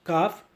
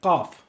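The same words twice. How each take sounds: First: Kaf begun with an ordinary k; K-sound kaf. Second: Kaf begun with a q, far back in the mouth; Q-sound kaf. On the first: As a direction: say kaf with the K of English. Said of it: "the k". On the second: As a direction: say kaf as qaf. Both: Shown as a demonstration.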